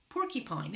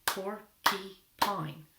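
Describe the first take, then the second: First: Said in the usual way. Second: PORCUPINE very slowly in three separate beats; broken into syllables. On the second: Shown as a demonstration. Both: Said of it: "We'll clap it out".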